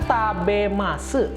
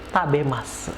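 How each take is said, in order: First: Every written sound is pronounced, including the final vowel. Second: It is said in its natural, reduced spoken form. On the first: This is how the word is written. "ditulisnya kan" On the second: This is how the word is actually said. "Ketika diucapkan dia"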